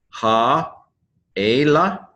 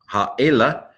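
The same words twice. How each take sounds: First: "Ha-ela" split by a long pause; syllable by syllable. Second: Said in the usual way. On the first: Shown as a demonstration. Teacher introducing a Hebrew word, syllable by syllable. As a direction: sound out "Ha", wait, then "ela". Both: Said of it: "accent on the first syllable".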